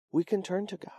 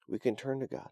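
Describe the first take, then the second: First: We can turn to God said much higher with a lift on can; preacher pushes the promise higher; stressed high. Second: Said in the usual way. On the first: Shown as a demonstration. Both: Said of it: "preacher repeats the line".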